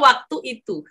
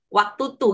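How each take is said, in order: First: The second word is said with both syllables. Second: The second word is clipped to a short form. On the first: The speaker calls it right. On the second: The speaker calls it wrong.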